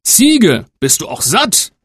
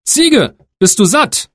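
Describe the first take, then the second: First: Higher call on Ziege, then settled gentle question; father asking the goat, gentler; old father asking. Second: High, bright calling question to the goat; eldest son asking. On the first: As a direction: ask the goat kindly. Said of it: "streichelte das liebe Tier und fragte". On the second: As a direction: call up to the goat, much higher. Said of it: "fragte er". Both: Acted.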